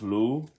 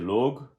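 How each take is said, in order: First: The name ends in an oo vowel. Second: The name ends with a slight G sound. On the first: "it is pronounced Lu, L O O" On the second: "slight G and a H at the end"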